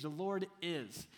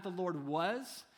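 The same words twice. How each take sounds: First: "The Lord is" slow and weighty, falling at the end; "The Lord is" spoken slowly, landing firmly on is; stress on the Lord is. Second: "the Lord was" slow with a rising "was"; "the Lord was" drawn out, "was" rising; stress on was. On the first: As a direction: lean into "The Lord is", unhurried. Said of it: "Those three words are huge". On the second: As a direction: hit "was" and lift it, questioning. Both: Shown as a demonstration.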